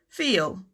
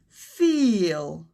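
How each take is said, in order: First: The long vowel has a natural, everyday length. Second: The long vowel is stretched out and exaggerated. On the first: "In reality, it would sound more like" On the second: "I'm exaggerating the sound a little bit"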